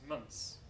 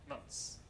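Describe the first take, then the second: Both takes have the same delivery.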